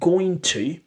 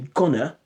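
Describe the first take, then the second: First: Both words are said fully and separately. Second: The words run together with sounds dropped. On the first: "instead of saying going to" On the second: "they say gonna, So that's elision. That's informal English"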